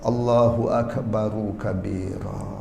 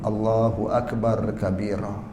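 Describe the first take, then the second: First: Akbar ends with an added u vowel. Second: Akbar ends in a plain r, no vowel. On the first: "Tapi hendaklah dibaca uh" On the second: "Kalau ra itu mati jadi akbar"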